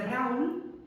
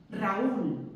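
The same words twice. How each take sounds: First: "Raúl" run together as one syllable, stress on the A. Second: "Raúl" in two syllables, stress on the U. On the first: Teacher shows the unwanted sound, stress on A. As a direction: say "Raúl" as RAUL, a diphthong led by A. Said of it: "en lugar de". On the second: Teacher shows students the accented name, stress on the U. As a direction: break "Raúl" into ra-Ú, landing on the U. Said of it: "si yo quiero que suene". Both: Shown as a demonstration.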